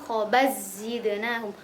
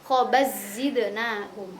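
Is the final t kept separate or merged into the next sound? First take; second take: merged; merged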